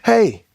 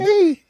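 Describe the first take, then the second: First: It is said in a plain, ordinary male voice. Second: It is said in a put-on imitation voice. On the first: This is how the person actually sounded. "He sounded like a regular dude" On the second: This is how the person was expected to sound. "He didn't sound like that"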